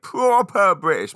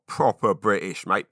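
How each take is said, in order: First: Much higher, louder, slower British drawl; over-the-top British catchphrase; hammed-up British. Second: Lightly exaggerated British; a mild hint of London "proper British, mate"; casual mock-British quip; British expat catchphrase. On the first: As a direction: ham up the British accent to annoy the kids. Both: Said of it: "My kids hate me doing that".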